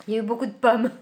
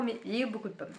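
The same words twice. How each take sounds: First: Pommes hit loud, in an exaggerated way; louder mock-dramatic claim about the apples; exaggerated emphasis. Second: Said in the usual way. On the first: Shown as a demonstration. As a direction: overstate beaucoup de pommes with a loud push. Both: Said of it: "Non, j'exagère".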